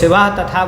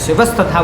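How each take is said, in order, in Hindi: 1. यह 'tatha' से पहले बिना 's' के बोला जाता है। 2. यह 'tatha' से पहले 's' के साथ बोला जाता है। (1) "इसको शिवा तथा बोल दियो" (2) "शिवस तथा बोलोगे तो ये ज़्यादा सही है"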